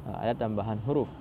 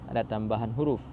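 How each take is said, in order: The two takes are said the same way.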